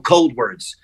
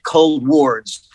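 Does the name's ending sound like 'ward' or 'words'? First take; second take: words; ward. First: The ending is said like the word words. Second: The ending is said like the word ward. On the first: The name means moving towards the cold. "like forwards, like towards... kind of pronounced, I guess, like ColdWords" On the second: The name refers to a hospital ward. "Like a hospital ward, like a psychiatric ward"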